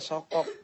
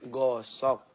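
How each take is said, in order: First: The word starts with an s sound. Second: The word starts with a g sound. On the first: A small child is mispronouncing the word. The speaker calls it wrong. "Dede bukan sokok" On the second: The word is pronounced correctly. The speaker calls it right.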